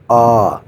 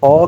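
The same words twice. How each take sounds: First: "آ" as a long open "aah"; first vowel sound. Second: "آ" rounded like "aw"; third vowel sound. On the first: Teacher showing learners the first Korean vowel, long open "آ". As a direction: hold "آ" as a clear, open "aa". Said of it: "وہ آواز نکالتے ہیں آ کا". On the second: Teacher showing learners the third Korean vowel, "آ" as "aw". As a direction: say "آ" as a rounded, open "aw". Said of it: "وہ آواز نکالتی ہیں آ". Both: Shown as a demonstration.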